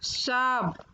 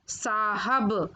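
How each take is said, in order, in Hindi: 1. बीच का 'h' छोड़ दिया जाता है। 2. बीच का 'h' स्पष्ट रूप से बोला जाता है। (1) "पहले नंबर पर अशुद्ध शब्द" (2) "फिर उनका शुद्ध उच्चारण"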